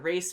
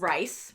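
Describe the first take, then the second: First: The name has an ay vowel. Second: The name has an eye vowel. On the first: "the Race family" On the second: "I think Rice is the appropriate way"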